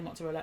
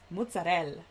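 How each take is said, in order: First: It is said with a plain American accent. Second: It is said with an Italian accent. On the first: The speaker calls it wrong. "I'm going to stop calling it mozzarella" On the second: The speaker calls it right. "the way authentic Italians say mozzarella is way better"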